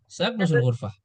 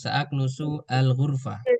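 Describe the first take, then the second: First: The words run together, linked without a break. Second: Each word is said separately, one by one. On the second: "sekarang satu-satu"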